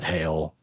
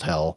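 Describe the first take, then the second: First: The vowel sounds like the one in 'bail'. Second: The vowel sounds like the one in 'bell'. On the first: The speaker calls it wrong. "not Hail" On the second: The speaker calls it right. "definitely pronounced Hell"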